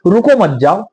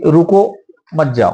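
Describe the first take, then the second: First: The pause comes right after मत. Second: The pause comes right after रुको.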